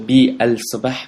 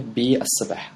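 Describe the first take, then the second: First: The l of the article is clearly pronounced. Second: The l is silent, merged into the s. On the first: "I don't say B al-sabah" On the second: "I will say B al-sabah"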